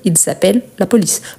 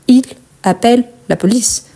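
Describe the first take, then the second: First: A z sound links the first two words. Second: The words are separated with no linking z sound. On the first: It marks that several people are calling. The speaker calls it right. "on marque bien la liaison" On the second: It sounds as if one person is calling. The speaker calls it wrong. "Si on parle plus doucement, séparément"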